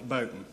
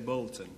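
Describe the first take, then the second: First: It is said with a local accent. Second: It is said with a posh accent. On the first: The speaker is from the local area. "if you come from where I live, it's Bolton" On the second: The speaker is posh. "If you're posh, you say Bolton"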